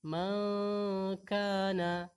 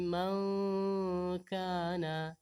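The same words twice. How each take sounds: The two takes are said the same way.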